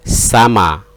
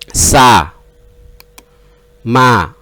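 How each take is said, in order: First: The two syllables run together without a pause. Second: The two syllables are separated by a pause.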